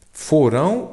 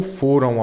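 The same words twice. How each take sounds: First: Foram said as fo-RÃO, stressed on the last syllable; slow Foram with the weight on a final nasal -rão. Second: Foram said as FO-ram, stressed on the first syllable; slow foram with a weak nasal ending after FO. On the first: Teacher contrasting verb endings for students, Foram stressed at the end. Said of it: "É passado". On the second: Teacher contrasting verb endings for students, foram stressed on FO. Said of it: "é A M". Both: Shown as a demonstration.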